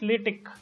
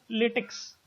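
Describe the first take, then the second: First: It ends with a plain 'k' sound. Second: It ends with a 'ks' sound, like rubber latex. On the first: The speaker calls it right. "it is LaTeX" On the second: The speaker calls it wrong. "the pronunciation of this LaTeX is not latex"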